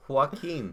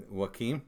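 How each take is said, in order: First: Joaquin said as wah-keen with a clear n; Joaquin, firm falling wah-keen; correct pronunciation. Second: Joaquin said as wah-keem, unsure rise; Joaquin ending in an m sound, questioning; mispronounced name. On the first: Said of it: "I think it's like an N". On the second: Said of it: "are you saying Pam or Pam". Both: Shown as a demonstration.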